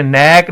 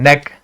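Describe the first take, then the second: First: नेक with a long drawn-out vowel; stretched vowel on नेक; wrongly stretched. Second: नेक with a brief vowel; quick, unstretched नेक; short vowel. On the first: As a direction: prolong the ए in नेक. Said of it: "इसको आपने नेक नहीं पढ़ना है". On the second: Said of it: "हम short पढ़ते हैं". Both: Shown as a demonstration.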